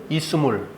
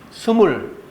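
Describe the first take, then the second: First: An extra i vowel comes before the s. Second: The word starts directly with the s sound.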